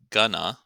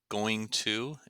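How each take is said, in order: First: The words merge into one short word. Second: Both words are said fully and separately.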